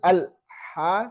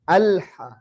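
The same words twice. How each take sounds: First: The l sound is stopped abruptly. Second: The l sound is held only moderately. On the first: The speaker calls it wrong. "tidak berhenti" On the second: The speaker calls it right. "tapi dia secukupnya"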